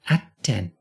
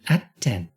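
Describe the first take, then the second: The two takes are said the same way.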